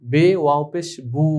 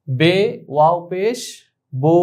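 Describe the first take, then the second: First: বু said as "boo", u in place of o; mistaken u vowel. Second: বো said as "boh", rounded o rather than u; majhul o vowel. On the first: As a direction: spell it out, ending বু with "oo". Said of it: "কিন্তু না, এটা ভুল". (বু-তে ও-র বদলে ঊ উচ্চারণ) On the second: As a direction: spell slowly, ending বো with a long "oh". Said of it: "বাংলা ওকারের মতো". (বো-তে ও-কার টেনে উচ্চারণ) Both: Shown as a demonstration.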